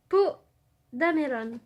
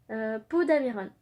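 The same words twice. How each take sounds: First: "Dameron" said Japanese-style with an l for the r, "Damelon"; light Japanese-accent joke on "Poe Dameron"; Japanese-style name. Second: Said in the usual way. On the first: Retold or imitated. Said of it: "à la japonaise".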